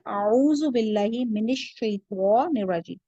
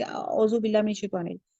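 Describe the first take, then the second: First: Slow اعوذ with a clear ain sound; careful recitation with a clear ain in اعوذ; correct pronunciation. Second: اعوذ said as a slurred "ozu" without the ain; sloppy pronunciation. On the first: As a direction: say اعوذ باللہ slowly and carefully, with a full ain. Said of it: "اعوذ یعنی کہ آئین پہ آپ کی صحیح آواز نکلنا چاہیے". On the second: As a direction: mumble اعوذ باللہ carelessly, as people usually do. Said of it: "ہم تو اعوذ باللہ پہ ایسے". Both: Shown as a demonstration.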